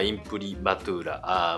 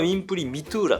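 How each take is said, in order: First: The third syllable is pronounced 'ma'. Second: The third syllable is pronounced 'mi'. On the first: This is how one university's professor says it. "私があの行っていた大学の教授は、まあ、インプリマトゥーラ" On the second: This is how another art school says it. "ムサビさんはインプリミトゥーラと"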